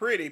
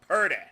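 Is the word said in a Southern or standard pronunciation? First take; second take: standard; Southern. First: It is said with a standard pronunciation. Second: It is said with a Southern pronunciation. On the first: "Not pretty" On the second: "That's how we used to say it in the South there"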